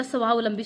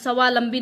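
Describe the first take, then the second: First: स्वावलंबी with a clear middle "au"; correct pronunciation. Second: स्वावलंबी without the middle "au", "svalambi"; wrong pronunciation. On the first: Teacher giving the pure word, स्वावलंबी as "svaav-lambi". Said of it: "स्वावलंबी शुद्ध शब्द है". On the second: Teacher showing the error, स्वावलंबी as "savalambi". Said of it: "स्वावलंबी नहीं होता". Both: Shown as a demonstration.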